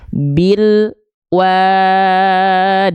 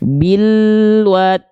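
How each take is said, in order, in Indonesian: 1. Bunyi l berhenti dengan jeda senyap yang singkat. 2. Bunyi l langsung menyambung ke w. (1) "jangan sampai ada jeda hening di antara mereka ... itu tak boleh tuh" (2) "Alnya terus jalan tanpa terhenti"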